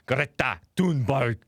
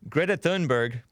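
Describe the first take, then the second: First: It is said in a German accent. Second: It is said in an American accent.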